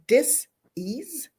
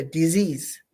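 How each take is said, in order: First: "dis-ease" broken into DIS, pause, EASE; split word. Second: Said in the usual way. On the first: Shown as a demonstration. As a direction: say "dis-ease" as two separate words with a gap. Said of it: "D I S, a dash, E A S E". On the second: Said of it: "That little dis-ease turns into a".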